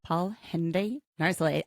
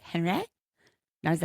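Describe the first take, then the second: First: Said in the usual way. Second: "Henry" with a nasal French ahn-REE, "Narzoulé" ending on a stressed ay; mock French pronunciation of "Henry Narzoulé"; French-style name. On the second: Shown as a demonstration. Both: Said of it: "I can't say Henry the way they do it".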